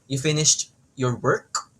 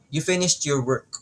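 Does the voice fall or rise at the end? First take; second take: rise; fall. First: The pitch rises at the end. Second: The pitch falls at the end. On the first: It is a question. "Pag rising intonation naman" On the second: It is a statement. "pag falling intonation, pababa yung pitch"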